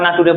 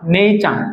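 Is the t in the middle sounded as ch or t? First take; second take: t; ch. First: The middle consonant is a plain t sound. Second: The middle consonant is a ch sound. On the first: The speaker calls it wrong. "নাটুরে বলি না" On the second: The speaker calls it right. "টির উচ্চারণ আসলে চ হয়"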